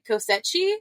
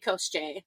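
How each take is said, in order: First: The name is said with three syllables. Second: The name is said with fewer syllables. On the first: The speaker calls it wrong. "we say Kosechi" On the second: The speaker calls it right. "it's actually Kosche"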